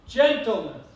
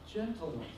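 First: The word is said loudly. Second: The word is said softly.

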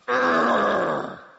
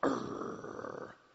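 First: The growl is louder. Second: The growl is quieter.

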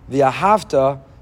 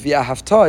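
First: The stress is on the next-to-last syllable. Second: The stress is on the final syllable. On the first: It describes something done in the past. "Mila el, mila ra, via hafta. It's past tense" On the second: It is a command for the future. "but it's via hafta, it's future tense"

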